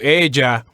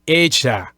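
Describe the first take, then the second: First: The double L sounds like a light English J. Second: The double L sounds like a ZH sound. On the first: "as opposed to ella" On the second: "they would say it as a as a Z H sound, just like this"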